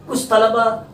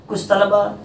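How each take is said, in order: No difference in how they are said.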